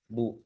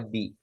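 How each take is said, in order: First: The b is followed by a u vowel. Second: The b is followed by an i vowel. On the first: The speaker calls it wrong. "bukan bu" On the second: The speaker calls it right. "dibacanya bi"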